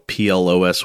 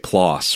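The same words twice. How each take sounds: First: The vowel does not match the vowel in floss. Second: The vowel matches the vowel in floss. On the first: The speaker calls it wrong. "I know for many years I've been calling this journal PLOS ONE" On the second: The speaker calls it right. "they say PLOS, rhyming with floss"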